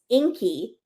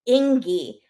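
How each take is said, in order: First: The middle consonant sounds like a K. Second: The middle consonant sounds like a G. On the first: The speaker calls it right. "the G is pronounced like a K" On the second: The speaker calls it wrong. "the sister starts calling him Ingy"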